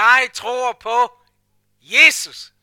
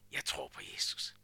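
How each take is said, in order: First: Loud, slow proclamation; loud proud declaration of faith; bold confession. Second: Timid mumble. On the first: Shown as a demonstration. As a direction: declare it to the whole room. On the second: Retold or imitated. Too hard to say aloud.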